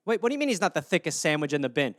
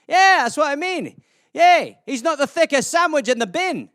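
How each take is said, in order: First: Said in the usual way. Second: Animated, higher-pitched Scottish banter; hammed-up Scottish lilt; Scottish accent. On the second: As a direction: play a chatty Scot, pitched up. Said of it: "it's a Scottish euphemism".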